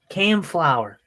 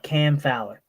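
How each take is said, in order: First: The surname is said with an 'l' first, 'Flower'. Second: The surname is said with 'ow' first, 'Fowler'. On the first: The speaker calls it wrong. "mess up" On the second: The speaker calls it right. "How do you possibly mess up Cam Fowler?"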